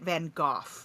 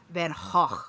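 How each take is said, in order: First: The name is said in an English accent. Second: The name is said in its native-language pronunciation. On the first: This is how English people say it. "the English say it Van Gogh" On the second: This is the pronunciation from the painter's home country. "actual Austrian pronunciation is Van Gogh"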